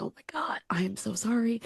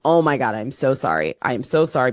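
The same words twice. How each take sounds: First: Imitated whispered apology, much softer; retold whisper. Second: Said in the usual way. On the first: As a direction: whisper the sorry across to your friend. Whispering apology to drunk friend.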